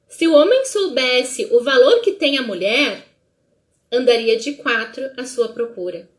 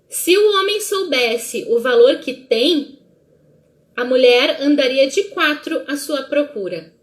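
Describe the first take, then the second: First: There is a pause after the word mulher. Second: There is a pause after the word tem.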